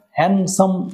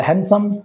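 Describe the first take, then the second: First: handsome in two separate beats, hand then সাম; split into syllables. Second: Said in the usual way. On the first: Shown as a demonstration. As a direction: say handsome syllable by syllable, raised pitch. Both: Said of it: "দুটো syllable".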